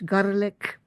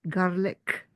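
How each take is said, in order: First: The word is said in a Scottish accent. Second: The word is said in a British accent. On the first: "I have to go Scottish" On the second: "my British accent"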